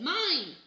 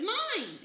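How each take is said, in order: First: Loud, high possessive shout; toddler's greedy yell; grabbing it. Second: High, loud shout of Mine!; toddler's furious counter-yell. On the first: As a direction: claim it loudly. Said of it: "and said". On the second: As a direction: shout it back even higher. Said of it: "Fudge shouted". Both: A narrator's reading.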